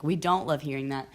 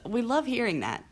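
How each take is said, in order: First: Said in the usual way. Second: Higher-pitched sarcastic gush. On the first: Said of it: "I'm being sarcastic". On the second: Real, not acted. Chronically ill host on hearing "you don't look sick", sarcastic. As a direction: say it with mock delight. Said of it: "Yeah, I'm being sarcastic".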